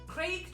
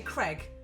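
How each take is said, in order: First: The vowel rhymes with plague. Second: The vowel rhymes with Greg. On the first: "we say Craig to rhyme with ... plague" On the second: "Americans say Craig, like to rhyme with Greg"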